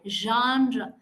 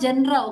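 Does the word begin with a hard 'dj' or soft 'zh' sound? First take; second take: soft zh; hard dj. First: The word begins with a soft zh sound. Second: The word begins with a hard dj sound. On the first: The speaker calls it right. "That's a j sound" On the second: The speaker calls it wrong. "It is not genre"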